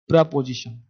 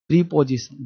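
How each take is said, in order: First: The first syllable sounds like 'pruh'. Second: The first syllable sounds like 'pree'. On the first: The speaker calls it right. "प्रा, क्या पढ़ना है?" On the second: The speaker calls it wrong. "गलत पढ़ता है।"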